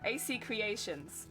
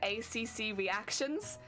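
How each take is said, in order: First: Two letters are followed by the word creations. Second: Three letters are followed by the word reactions. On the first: The name means a maker of creations. The speaker calls it right. "no A C Creations" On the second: The name sounds like a reactions channel. The speaker calls it wrong. "everyone would pronounce it"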